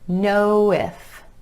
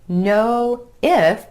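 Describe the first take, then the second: First: The words are joined with a w glide. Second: The two words are said separately.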